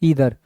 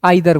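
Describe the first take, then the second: First: The first vowel sounds like 'ee'. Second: The first vowel sounds like 'eye'. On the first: The speaker calls it right. "इसको क्या बोलेंगे ईदर" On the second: The speaker calls it wrong. "आप लोग क्या करते हो, गलती करते हो"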